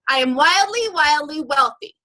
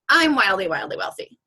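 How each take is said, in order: First: It sounds confident and convinced. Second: It sounds doubtful and unconvinced. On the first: The speaker believes it. The speaker calls it right. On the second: The speaker does not believe it. The speaker calls it wrong.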